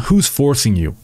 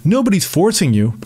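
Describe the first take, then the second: First: Said in the usual way. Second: High, sing-song mockery of "Nobody's forcing you"; mocking quote. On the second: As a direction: parrot her line with a sneer. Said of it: "the regurgitated line from progressive nutjobs".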